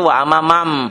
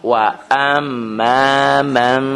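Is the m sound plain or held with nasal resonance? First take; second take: plain; nasal. First: The m is plain, without held nasal resonance. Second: The m is held with nasal resonance. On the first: The speaker calls it wrong. "Banyak orang yang salah di kampung saya itu wa amma mam. M doang tapi enggak ada samarnya" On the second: The speaker calls it right. "Jadi tangkap aja enggak apa-apa tapi dibindengin"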